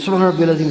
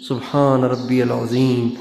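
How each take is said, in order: First: It is said quickly, rushed together. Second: It is said slowly, with pauses.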